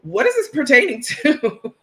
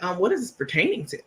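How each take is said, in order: First: Higher and louder, laughing through the prim line; laughing uppity repeat. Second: Fast, clipped mock-formal question; prim uppity reply. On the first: Retold or imitated. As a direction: repeat the snooty question cracking up. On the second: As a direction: play the stuck-up receptionist, quick and cool. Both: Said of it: "y'all know I'm an uppity Negro".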